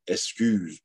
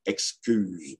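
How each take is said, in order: First: "excuse" said as "escuse"; X pronounced S. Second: Said in the usual way. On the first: Shown as a demonstration. Lecturer giving an example, "excuse" as "escuse". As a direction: drop the k sound in "excuse". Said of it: "se prononce S". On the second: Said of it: "plutôt que excuse".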